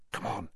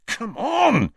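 First: Hushed Harry. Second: Ron, urging. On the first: Harry hushed, hiding from Hagrid. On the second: Ron urging friends to follow. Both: A narrator's reading.

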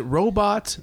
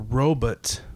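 First: "robot" with a full BOT ending; "robot", last syllable rhyming with hot; robot said ROH-bot. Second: "robot" with a reduced BUT ending; "robot", last syllable rhyming with cut; robot said ROH-but. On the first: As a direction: say "robot" as ROH-bot, second vowel open. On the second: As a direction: say "robot" as ROH-but, second vowel swallowed. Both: Shown as a demonstration. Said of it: "except for the guy that narrates".

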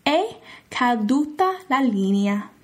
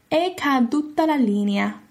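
First: "È caduta la linea" slowly, with È as EH; slow Italian. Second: "È caduta la linea" at a normal pace, stress on È; Italian phrase. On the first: Teacher demonstrating what to say after a dropped call. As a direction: model it slowly. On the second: Teacher repeating the dropped-call phrase. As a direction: repeat it naturally. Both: Shown as a demonstration. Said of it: "you would say".

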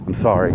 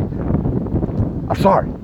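First: Said in the usual way. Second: Drawn-out breathy whine of sorry; mock whiny apology. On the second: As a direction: stretch it into a mock plea. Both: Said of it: "apologize, apologize".

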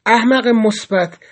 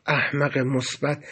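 First: Slow, emphatic scolding; stern telling-off, each word pressed; sharp address. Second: Low, soft and slow; exasperated. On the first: Cellmate rebuking his naive friend, sharp. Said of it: "با خطابی تند به من گفت". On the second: Cellmate with face in hands, quietly exasperated. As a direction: sigh it out in weary resignation. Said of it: "صورتش رو بین دستاش گرفت و گفت". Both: A narrator's reading.

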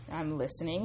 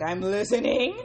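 First: Said in the usual way. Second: Loud, eager reply with rising end; hammed-up keen interest; piqued interest. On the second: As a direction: perk right up, louder and lifting at the end. Growing interest in retold reply.

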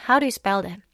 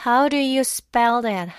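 First: Said in the usual way. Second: Slow "How do you spell that", each word stressed; emphatic teaching stress. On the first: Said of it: "강세를 좀 더 세게". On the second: Shown as a demonstration. Teacher models "How do you spell that" for learners, slow and emphatic. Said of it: "강세를 좀 더 세게 주로 읽거든요".

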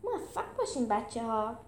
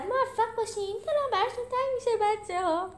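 First: Spoken farewell. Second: Squeaky, excited farewell shout at moderate volume; high, hurried send-off, lightly shouted; high-pitched call. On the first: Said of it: "گفت". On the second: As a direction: call out high and quick to departing friends. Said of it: "پنی داد زد". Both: A narrator's reading.

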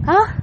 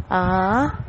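First: AH short, high and level; first-tone exclamation. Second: AH sliding upward like a surprised question; second-tone exclamation. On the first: Teacher recalling the first tone, high level AH. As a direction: pop AH out high without sliding. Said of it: "el primero recuerden". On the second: Teacher recalling the second tone, rising AH. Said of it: "El segundo es". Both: Shown as a demonstration.

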